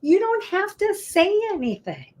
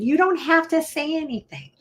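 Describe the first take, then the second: First: Much higher pitch, "don't" stressed hard; high emphatic repeat. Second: Higher "don't" stressed in "You don't have to say anything". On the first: Lawyer insisting to clients, high and emphatic. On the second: Lawyer advising clients, stressing don't. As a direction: punch the word "don't". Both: Shown as a demonstration.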